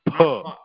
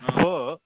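First: The syllable begins with a p sound. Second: The syllable begins with an f sound. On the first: The speaker calls it right. "it is pa" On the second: The speaker calls it wrong. "It's not fa"

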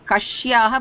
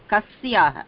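First: The consonant is pronounced as an sh sound. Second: The consonant is pronounced as a plain s sound. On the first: The speaker calls it wrong. "is not Kashyaha" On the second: The speaker calls it right. "but Kasyaha. Sa"

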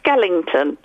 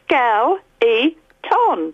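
First: The middle of the word sounds like 'ing'. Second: The middle of the word has no 'ing' sound. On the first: The speaker calls it wrong. "It's not Skellington" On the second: The speaker calls it right. "It's Skell-E-Ton"

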